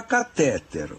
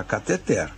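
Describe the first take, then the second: First: Catéter said slowly, stressed on TÉ; emphatic catéter, ca-TÉ-ter; stress on middle syllable. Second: Cateter stressed on final TER; stress on final syllable. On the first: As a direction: drive home the second syllable of catéter. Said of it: "coloque acento no E". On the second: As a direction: move the beat of cateter to the last syllable. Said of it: "se você não puser acento". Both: Shown as a demonstration.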